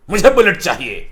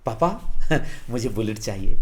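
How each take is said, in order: First: Put-on a louder, insistent kid's demand to dad; angry demand. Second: Sweetly coaxing. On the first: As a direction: demand the bike like a sulky angry son. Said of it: "गुस्सा होकर बोलते हैं". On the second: Pretend. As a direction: wheedle dad gently for the bike. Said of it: "आप प्यार से बोलेंगे".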